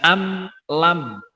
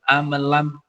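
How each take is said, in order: First: The 'am' and 'lam' are said clearly apart. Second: The 'am' catches and runs into 'lam'. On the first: The speaker calls it right. "mestinya jelas" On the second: The speaker calls it wrong. "amnya itu kayak nyantol gitu"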